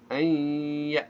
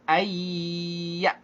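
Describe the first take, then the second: First: The n is held with a nasal hum first. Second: The n merges straight into the y sound. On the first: The speaker calls it right. "tapi ayya, ditahan nunnya" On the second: The speaker calls it wrong. "jadi tidak langsung ayya"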